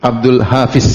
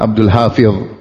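First: The last consonant of the name sounds like z. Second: The last consonant of the name sounds like th. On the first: This is how locals usually say it. The speaker calls it wrong. "Abdul Hafiz kalau kita" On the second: This is the original pronunciation. The speaker calls it right. "Padahal Abdul Hafidh"

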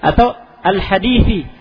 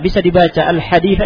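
First: The word ends with an 'i' vowel. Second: The word ends with an 'a' vowel. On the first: Up to the end of the hadith. "Atau al-hadithi ila akhiril hadithi" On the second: Complete the hadith yourself. "Bisa dibaca al-haditha, ini kan disingkat"

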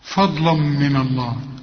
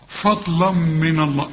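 First: The l and m sounds are heavy. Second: The l and m sounds are light. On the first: The speaker calls it wrong. "كلها خطأ" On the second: The speaker calls it right. "اللام هنا مرققة والميم مرققة"

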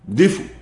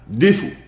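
The two takes are said the same way.

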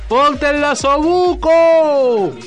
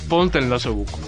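First: The phrase is shouted loudly. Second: The phrase is said while laughing. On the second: "Y riéndote"

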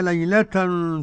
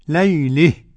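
First: The final vowel is plain, with no leaning. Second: The final vowel leans toward an 'e' sound. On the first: "لو وصلناها كده ما فيش حاجة" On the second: "إذا وقفت عليها قرأها الكسائي بالإمالة"

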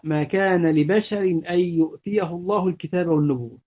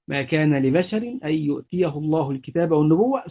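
First: The reciting stops after the last word. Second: The reciting runs on past the last word. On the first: It suggests no human receives scripture or prophethood. The speaker calls it wrong. "ويقف، هذا وقف قبيح" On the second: It completes the meaning of the whole verse. The speaker calls it right. "إنما يصل ليتم المعنى"

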